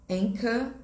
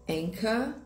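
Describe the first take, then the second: The two takes are said the same way.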